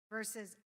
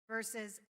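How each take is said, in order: The two takes are said the same way.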